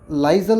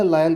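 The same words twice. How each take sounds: First: लाइजल with a sounded z in the middle; लाइजल, two syllables ending in -zal; wrong pronunciation. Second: लायल with the S left silent; लायल, rhyming with "dial"; correct pronunciation. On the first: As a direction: say लाइजल as spelled, voicing the S as z. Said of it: "इसको हम लाइजल नहीं बोलेंगे". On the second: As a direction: say लायल with no z, gliding from "lai" into "al". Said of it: "या लायल बोलेंगे". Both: Shown as a demonstration.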